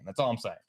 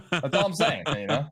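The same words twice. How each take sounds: First: Said in the usual way. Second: Laughing. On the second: Real, not acted. Repeats the punchline, laughing.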